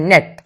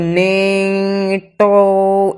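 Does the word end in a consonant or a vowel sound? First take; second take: consonant; vowel. First: The word ends sharply on the consonant. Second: The word ends with an extra vowel sound. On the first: The speaker calls it right. "इसे direct पढ़ा जाता है नेट" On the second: The speaker calls it wrong. "इसे ये नहीं पढ़ते हो नेटो"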